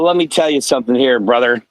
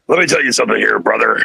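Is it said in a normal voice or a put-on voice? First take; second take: normal voice; put-on voice. First: It is said in his normal voice. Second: It is said in a put-on character voice.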